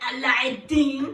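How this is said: It is said with an Arabic-style pronunciation.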